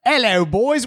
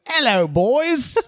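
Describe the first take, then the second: First: Higher mock British "Hello, boys."; hammy British "Hello, boys."; reading a listener's greeting in a put-on British voice. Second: Slow, higher mock British "Hello, boys."; drawn-out hammy British "Hello, boys."; teasing a listener's greeting in a put-on British voice. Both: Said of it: "Joel's from foggy London town".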